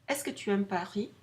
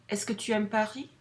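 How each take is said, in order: No difference in how they are said.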